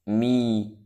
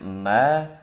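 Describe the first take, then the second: First: The vowel is closed, like i. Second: The vowel is open, like a. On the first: "Kalau dinaikkan lagi jadi i" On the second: "bukan diucap ma"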